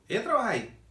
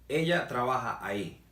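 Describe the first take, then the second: First: It is said as a question, rising. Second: It is said as a statement, falling.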